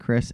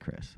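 First: It is said in a showy presenter voice. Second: It is said in a relaxed everyday voice. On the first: The speaker is on air hosting the show. "I was doing Not For Nothing" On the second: The speaker is just chatting off air. "not when we talk normally"

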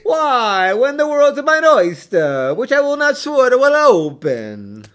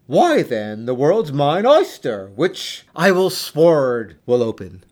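First: It is said in a stereotypical Italian accent. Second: It is said without a put-on accent.

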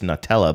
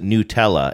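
First: The first syllable sounds like 'nut'. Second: The first syllable does not sound like 'nut'. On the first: The speaker calls it wrong. "I always associate it with nuts, so I think it's Nutella" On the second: The speaker calls it right. "They pronounce it Nutella"

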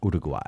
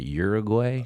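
First: The name is said the local, non-American way. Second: The name is said the typical American way. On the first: The speaker calls it right. "I say it like that" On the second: The speaker calls it wrong. "They made me feel like the stupidest American ever"

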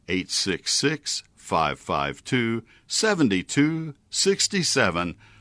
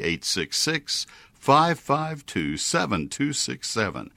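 First: The number is read slowly and deliberately. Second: The number is read at a normal, quicker pace.

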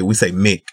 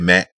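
First: The vowel sounds like 'i' in 'mick'. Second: The vowel sounds like 'a' in 'mack'. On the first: This is how people in the South say it. "in the South we say Mick" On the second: This is not how people in the South say it. "We don't say Matt"

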